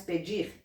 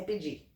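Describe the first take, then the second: First: Said in the usual way. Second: "pedir" without its final R, ending on a stressed open "i"; dropped final R. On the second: Shown as a demonstration. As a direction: say "pedir" as "pedí", swallowing the R. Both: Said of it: "Estão comendo o R do final".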